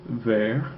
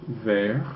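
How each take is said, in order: No difference in how they are said.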